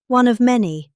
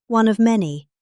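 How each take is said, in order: Both takes have the same delivery.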